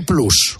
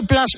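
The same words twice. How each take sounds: First: PLUS with a Spanish U. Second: PLUS said as "plas". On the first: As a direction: say Plus as "ploos". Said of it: "y se dice Plus". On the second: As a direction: say Plus with an open A. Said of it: "O se escribe Plus". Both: Shown as a demonstration.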